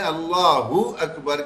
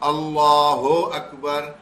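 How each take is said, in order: First: Allah ends in a short joined 'u' sound. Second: Allah is followed by a separate 'ho' sound. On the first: The speaker calls it right. "हमें अल्लाहू अकबर करके अदायगी करनी है" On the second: The speaker calls it wrong. "ये गलत हो जाता है"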